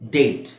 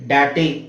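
First: The final e is silent, one syllable. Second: The final e is pronounced as a syllable. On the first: The speaker calls it right. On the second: The speaker calls it wrong. "ಡಾಟೆ ಆಗುತ್ತಾ? ಇಲ್ಲ"

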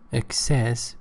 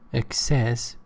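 First: It has a British English pronunciation. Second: It has a British English pronunciation.

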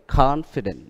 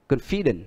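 First: The stress is on the first syllable. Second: The stress is on the second syllable. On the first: The speaker calls it right. "nhưng mà ở đây là confident, đó là ngoại lệ" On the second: The speaker calls it wrong. "Bình thường chúng ta hay bị lỗi ở cái đời, hay phát âm là confident"

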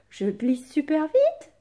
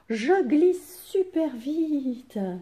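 First: It is said with questioning intonation. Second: It is said with lively exclamatory intonation. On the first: The speaker asks something. The speaker calls it wrong. "ça n'est pas une question" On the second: The speaker expresses joy. The speaker calls it right. "vous entendez ma voix"

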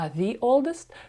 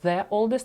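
First: The word 'the' sounds like 'thee'. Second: The word 'the' sounds like 'thuh'. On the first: The speaker calls it right. "а «the oldest»? Тому що у нас слово «old» починається з голосної" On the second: The speaker calls it wrong. "Чому у нас не «the oldest»"

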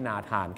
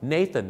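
First: The name is said with Thai pronunciation. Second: The name is said with English pronunciation. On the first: The speaker calls it wrong. "ไม่ใช่นาธานครับ" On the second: The speaker calls it right. "ฝากไว้หนึ่งชื่อครับ, Nathan"

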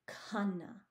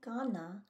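First: The k is followed by a breathy h sound. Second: The k is plain, with no breath after it. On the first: The speaker calls it right. "Do you hear how I'm pronouncing that H after the K?" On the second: The speaker calls it wrong. "I'm not saying khana"

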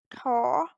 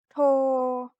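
First: The tone rises on the syllable. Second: The tone stays level on the syllable. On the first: "Вимова з придихом, тон висхідний" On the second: "Він вимовляється також з придихом, але має рівний тон"

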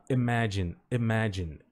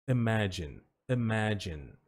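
The two takes are said the same way.

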